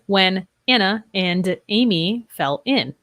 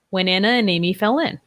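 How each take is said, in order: First: Each word is said separately without linking. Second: Final consonants run smoothly into the next vowels. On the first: "Instead of" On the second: "we have three linked sounds"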